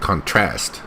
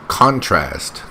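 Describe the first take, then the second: First: The stress is on the second syllable. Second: The stress is on the first syllable. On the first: The speaker calls it wrong. "she put the stress here on the wrong syllable" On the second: The speaker calls it right. "It's contrast"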